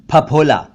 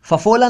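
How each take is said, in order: First: फफोला as "p-hap-hola"; two lip puffs in फफोला; aspirated ph. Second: फफोला as "fafola"; two f sounds in फफोला; mispronounced ph as f. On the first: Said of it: "फफोला नहीं". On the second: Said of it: "नहीं". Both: Shown as a demonstration.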